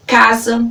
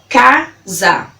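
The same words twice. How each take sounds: First: Said in the usual way. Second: CASA slowly split into ca - za; syllable by syllable. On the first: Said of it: "já estou falando elas pausadamente". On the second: Shown as a demonstration. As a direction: break CASA into two separate beats, ca, za. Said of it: "falando elas pausadamente pra você".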